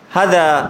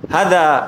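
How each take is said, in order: The two takes are said the same way.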